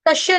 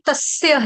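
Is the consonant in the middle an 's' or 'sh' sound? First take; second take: sh; s. First: The middle consonant is a 'sh' sound. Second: The middle consonant is an 's' sound. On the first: The speaker calls it wrong. "तस्य नहीं है माता जी" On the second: The speaker calls it right. "तस्य है, स सूरज वाला है"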